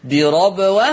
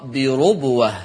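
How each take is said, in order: First: "بربوة" as birabwa, open ra, rising at the end; فتح الراء. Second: "بربوة" as birubwa, with ru; ضم الراء. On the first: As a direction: say "بربوة" with an a after the r. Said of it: "حفص يقرأ بالفتح". ("بربوة" بفتح الراء) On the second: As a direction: say "بربوة" with a u after the r. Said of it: "أما ورش يقرأ". ("بربوة" بضم الراء) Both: Shown as a demonstration.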